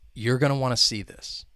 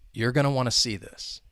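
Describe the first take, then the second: The two takes are said the same way.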